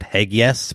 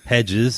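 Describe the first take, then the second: First: The middle consonant is a hard g sound. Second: The middle consonant is a soft j sound. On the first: This is the habitual mistaken way of saying it. The speaker calls it wrong. "I would normally have said Hegges" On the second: This is the correct way of saying it. The speaker calls it right. "but it's Hedges"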